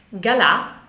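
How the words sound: The name is said the French way. "alla francese"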